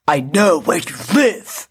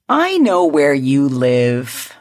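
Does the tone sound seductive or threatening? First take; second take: threatening; seductive. First: It sounds aggressive and threatening. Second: It sounds seductive and flirty.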